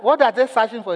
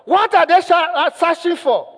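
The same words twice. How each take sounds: First: Said in the usual way. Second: High, loud, urgent shout; shouted question. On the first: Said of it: "when he asked". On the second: Retold or imitated. Man demanding answers from a child, shouting. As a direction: imitate a panicked caller yelling. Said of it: "he shouted".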